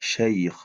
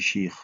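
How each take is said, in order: First: The vowel is an ay diphthong. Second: The vowel is a plain i sound. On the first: The speaker calls it right. "Shair, shair" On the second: The speaker calls it wrong. "vous dites comme les shir"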